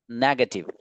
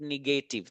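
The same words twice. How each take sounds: First: Negative said as NEG-uh-tiv; correct pronunciation. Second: Negative said as ni-GAY-tiv; wrong pronunciation. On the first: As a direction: stress the first syllable of negative. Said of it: "this word is". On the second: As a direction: stress a long GAY in negative. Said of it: "not negative". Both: Shown as a demonstration.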